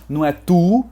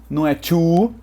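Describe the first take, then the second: No difference in how they are said.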